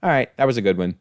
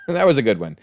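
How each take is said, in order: First: A light take on a director conceding, barely voiced; imagined grudging Singer. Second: Chuckling through the words; laughing. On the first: Reviewer imagines director Singer admitting the costume dig, lightly voiced. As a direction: concede the joke with a grudging nod. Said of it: "I hope you are watching this very episode and going". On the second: Real, not acted. Reviewer laughing at the costume joke, chuckling. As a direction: laugh as you repeat it.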